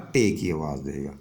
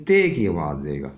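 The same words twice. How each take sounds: First: ٹے with a hard retroflex t; unaspirated retroflex t in ٹے. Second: تے with a soft dental t; unaspirated dental t in تے. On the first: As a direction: curl the tongue back for the t of ٹے. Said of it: "یا ٹے کی آواز دے گا". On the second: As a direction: say تے with tongue on the teeth. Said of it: "تو یہ باریک آوازیں ہیں". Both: Shown as a demonstration.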